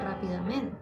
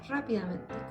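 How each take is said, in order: First: The stress falls on the fourth syllable. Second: The stress falls on the first syllable. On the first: This is how the word is normally spoken. "uno al pronunciarlo dice rápidamente" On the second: This follows the written accent mark. "pero es rápidamente con la, el tilde acá"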